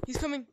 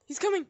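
First: Said in the usual way. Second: Higher, louder alarmed call; louder urgent warning. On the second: Real, not acted. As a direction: raise the alarm now.

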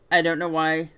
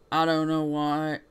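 First: Said in the usual way. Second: Slow, drawn-out southern drawl; southern accent. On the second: Shown as a demonstration. Player hunting for a forgotten voice, southern accent. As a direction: stretch WHY into a southern "wah". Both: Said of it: "blanking on a southern accent".

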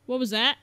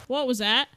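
No difference in how they are said.

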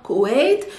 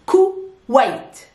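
First: Said in the usual way. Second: Kuwait broken as "Ku... wait", each part stressed; syllable-split demonstration. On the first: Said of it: "not Kuwait". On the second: Shown as a demonstration. Teacher modelling Kuwait for learners, split syllable by syllable. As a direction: say Kuwait in two separate, deliberate syllables. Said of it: "by saying al Kuwait".

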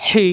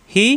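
First: "হি" with strong pharyngeal h; throat-pressed h. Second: Said in the usual way. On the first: Shown as a demonstration. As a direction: squeeze the throat on "হি". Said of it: "কণ্ঠনালীতে চাপ সৃষ্টি হবে". ("হি" কণ্ঠে চাপ দিয়ে) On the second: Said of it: "normal".

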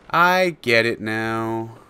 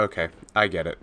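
First: Drawn out slowly, louder; slow dawning realisation. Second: Said in the usual way. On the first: Real, not acted. To himself in the game, slow drawn-out realisation. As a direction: let it sink in slowly.

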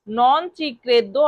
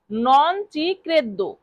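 First: Said in the usual way. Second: Very slow teaching read; slow drill. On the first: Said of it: "অর্থাৎ আমি এটা বিশ্বাস করি না". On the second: Shown as a demonstration. Teacher repeating the phrase for students, very slow. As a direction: stretch every syllable for learners. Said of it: "non credo মানে বিশ্বাস না করা".

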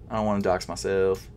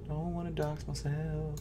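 First: Said in the usual way. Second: Murmured repeat. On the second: Real, not acted.

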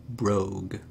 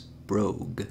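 First: "Brogue" said on its own, each sound shown clearly; pronunciation demo. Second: Said in the usual way. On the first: Shown as a demonstration. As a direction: set "Brogue" apart and model how it sounds. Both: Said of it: "pronounced like this".

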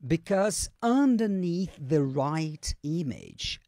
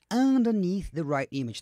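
First: Very slow, stretched-out teacher's model; slow modelling. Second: Less drawn-out model of the phrase; connected modelling. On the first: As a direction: draw out every word for learners. Teacher slowly models played clip. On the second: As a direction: say it more joined up, still careful. Quicker repeat of slow model. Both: Shown as a demonstration.

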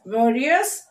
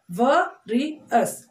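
First: Said in the usual way. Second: VARIOUS broken as va, ri, us; three separate beats on VARIOUS; split into syllables. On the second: Shown as a demonstration. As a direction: say VARIOUS one syllable at a time. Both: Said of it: "Three syllable words".

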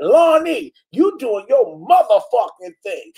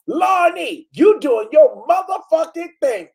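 First: Mock cheer of a fan's comment, first take; imitating Tracy. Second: Imitating Tracy. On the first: Host replays a fan's comment, first take, mild mock cheer. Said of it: "I can see how Tracy said that". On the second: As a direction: belt it out like an overexcited fan. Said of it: "No, this is how she said it".

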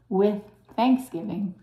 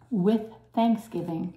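The two takes are said the same way.

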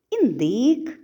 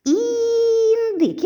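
First: Said in the usual way. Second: Індик sung out much higher and louder, the first І stretched; sounding out the word. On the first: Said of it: "записати фішки першого звуку цих слів". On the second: Shown as a demonstration. Teacher sounding out Індик so children hear І. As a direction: call out Індик high and long so the first sound rings. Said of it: "перший звук у слові індик".

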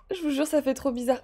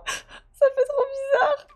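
First: Said in the usual way. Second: High, slow squeak on the edge of tears; overcome with emotion. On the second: Real, not acted. Player back in Anna's house, overwhelmed. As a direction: squeak it out slowly, half laughing, half crying.

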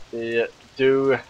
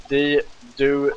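No difference in how they are said.

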